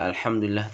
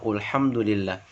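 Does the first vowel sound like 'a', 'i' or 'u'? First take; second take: a; u. First: The first vowel sounds like 'a'. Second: The first vowel sounds like 'u'. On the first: The speaker calls it right. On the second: The speaker calls it wrong.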